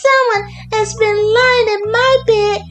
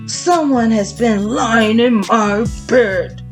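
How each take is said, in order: First: It is said in a little wee voice. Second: It is said in a great big voice. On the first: "cried in his little wee voice" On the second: "said in his great big voice"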